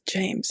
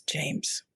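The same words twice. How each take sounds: First: Said in the usual way. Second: A quiet, annoyed "James", said lower and softer; curt, quietly irritated answer to an unwanted question. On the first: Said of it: "He answered me". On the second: Retold or imitated. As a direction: drop "James" low and soft like the question bothers you. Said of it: "kind of annoyingly says".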